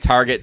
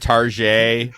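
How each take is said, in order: First: It is said with a plain English pronunciation. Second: It is said with a fancy French-style pronunciation.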